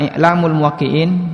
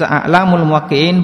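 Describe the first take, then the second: First: The first word begins with an 'i' vowel. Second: The first word begins with an 'a' vowel. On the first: Guidelines for those who give fatwas. The speaker calls it right. "Kalau dibaca I'lamul Muwaqqi'in, I'lam berarti rambu-rambu" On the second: A list of scholars who give fatwas. The speaker calls it wrong. "Kalau dibaca A'lamul Muwaqqi'in berarti daftar ulama"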